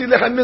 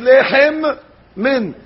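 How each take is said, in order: First: The two m sounds run together into one. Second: A short stop separates the two m sounds. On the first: The speaker calls it wrong. "They swallow the mem" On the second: The speaker calls it right. "Don't swallow the mem. Stop"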